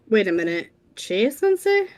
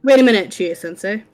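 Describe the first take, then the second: First: It ends with a rising, questioning tune. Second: It ends with a falling, statement tune.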